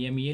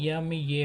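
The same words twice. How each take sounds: First: Said in the usual way. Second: यम ये spelled slowly, sound by sound; teacher spells यम ये slowly for students; slow spelling out. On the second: Shown as a demonstration. Teacher spelling slowly for the class. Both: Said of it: "तो माँ की अंग्रेजी क्या होता है".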